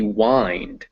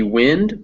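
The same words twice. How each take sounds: First: "wind" as in winding a clock, rhyming with find; long I. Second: "wind" as in a breeze, rhyming with pinned; short I. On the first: Teacher shows second reading of the word, "wind" with long I. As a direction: say "wind" with an "eye" vowel. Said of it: "that's winding a clock". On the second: Teacher shows first reading of the word, "wind" with short I. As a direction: say "wind" with the vowel of "pin". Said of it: "but it can also be". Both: Shown as a demonstration.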